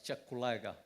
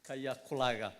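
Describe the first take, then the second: First: The name begins with a 'ch' sound. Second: The name begins with a 'k' sound. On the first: The speaker calls it right. "here they pronounce the word K Y A K A as Chakulaga" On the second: The speaker calls it wrong. "not Kayakulaga"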